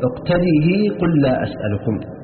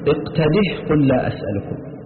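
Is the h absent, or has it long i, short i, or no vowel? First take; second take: long i; no vowel. First: The final h takes a long i vowel. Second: The final h is kept with no vowel. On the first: "بإثباتها مكسورة مع الإشباع وصلا" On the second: "بإثبات الهاء ساكنة وصلا ووقفا"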